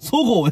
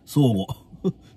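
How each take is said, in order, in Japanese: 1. 最初の母音は短く保つ。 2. 最初の母音は長く伸ばす。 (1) "そごうやって言うてんのに" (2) "ずーっとソゴーって言わずにソーゴーって言ってましたね"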